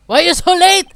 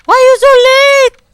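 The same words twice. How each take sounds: First: Raised, high scolding shout; loud complaint. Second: Very high, very loud shriek; screamed complaint. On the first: Scene: prosecutor scolding Detective Gumshoe, loud complaint. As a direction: yell at the latecomer. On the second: Scene: prosecutor scolding Detective Gumshoe for lateness, all-out scream. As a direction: scream it at full volume. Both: Acted.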